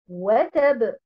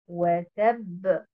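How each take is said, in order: First: The stress is on the first syllable. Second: The stress is on the second syllable. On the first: The speaker calls it wrong. "où on met l'accent sur euh, harakat al-waw" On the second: The speaker calls it right. "Nous avons l'accentuation sur harakat at-ta dans le mot watab"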